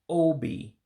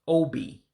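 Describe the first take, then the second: First: The pitch falls across the word. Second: The pitch stays level without falling. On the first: It means heart. "let your voice go down" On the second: It means chest. "that word is obi for chest"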